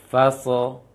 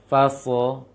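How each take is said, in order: No difference in how they are said.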